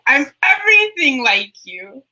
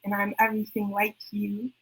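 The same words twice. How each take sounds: First: Climactic refrain. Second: Refrain dropped softer, almost to herself; quiet spoken-word refrain. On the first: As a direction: land the final line with full force. Poem refrain, climactic take. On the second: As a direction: let the line sink softly. Poem refrain, quiet take. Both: Acted.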